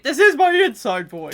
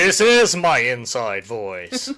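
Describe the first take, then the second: First: Loud, higher mock shouting; joking yell; mock inside voice. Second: Slow, loud, drawn-out echo; joking yell back; mock inside voice. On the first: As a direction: claim calm while yelling. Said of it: "be quiet".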